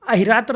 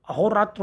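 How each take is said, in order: First: अहिरात्र with i after the h; wrong word form. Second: Said in the usual way. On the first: Shown as a demonstration. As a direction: say "ahi" at the start of अहिरात्र. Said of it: "नहीं होता". (अहिरात्र में हि) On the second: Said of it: "होता है".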